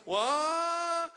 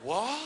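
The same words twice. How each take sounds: First: A long, very high, stretched-out cry of disbelief; long drawn-out what. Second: A quick, high, startled question; jolted awake by the news; startled what. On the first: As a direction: hold the vowel up high in shock. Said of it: "ten thousand A's". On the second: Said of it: "And he went". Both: Retold or imitated.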